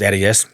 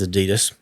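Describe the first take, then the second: First: Pronounced the way New Zealanders say it. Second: Pronounced the way Americans say it. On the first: "in New Zealand it's" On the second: "in the States it's"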